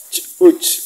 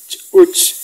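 The two takes are said the same way.

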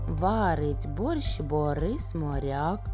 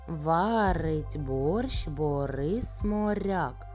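First: The phrase is spoken at a very fast pace. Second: The phrase is spoken at a fast pace. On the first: "ще трішечки швидше" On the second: "А зараз трішки швидше"

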